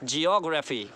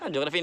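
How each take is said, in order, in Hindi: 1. Stress दूसरे अक्षर पर है। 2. स्ट्रेस दूसरे अक्षर पर नहीं है। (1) "ऑक पर स्ट्रेस है" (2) "ज्योग्राफी नहीं है"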